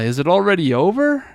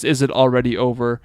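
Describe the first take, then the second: First: It is said with disappointed, regretful intonation. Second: It is said plainly, with no emotion. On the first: The speaker regrets possibly having missed it. "That adds the feeling that the shimaimashita is communicating" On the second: A plain question about whether it ended. "So this is just"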